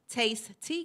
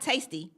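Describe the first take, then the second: First: It is said as two separate words. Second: It is said as one blended word. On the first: The speaker calls it right. "it's Taste Tea Cakes. You got to say it right" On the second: The speaker calls it wrong. "So not tasty"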